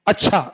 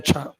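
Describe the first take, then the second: First: It is said in a surprised tone. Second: It is said in a plain, agreeing tone. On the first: The speaker is astonished by the news. "आश्चर्य" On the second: The speaker simply agrees. "Normally हमने कह दिया अच्छा"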